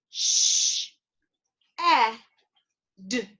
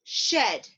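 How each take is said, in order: First: "Sh-, e-, d" as three separate phonemes with long pauses; sounded out. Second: Said in the usual way. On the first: Shown as a demonstration. Teacher leading learners through the word's phonemes, sounded out slowly. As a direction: break "shed" slowly apart, sound by sound. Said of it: "Let's sound out that word". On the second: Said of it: "bring it back together and say it together".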